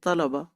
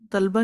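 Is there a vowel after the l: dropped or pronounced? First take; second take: pronounced; dropped. First: The l is followed by a vowel: talaba. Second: The l has no vowel after it: talba. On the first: The speaker calls it right. "हाँ पे जज्म नहीं होनी चाहिए" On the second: The speaker calls it wrong. "उसी तरह तलबा नहीं पढ़ते"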